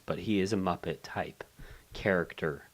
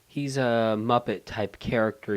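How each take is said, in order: First: Secretive whisper. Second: Said in the usual way. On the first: Shown as a demonstration. Don't wanna kill the illusion here.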